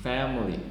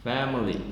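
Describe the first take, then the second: The two takes are said the same way.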